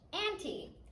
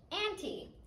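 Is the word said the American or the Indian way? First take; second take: Indian; Indian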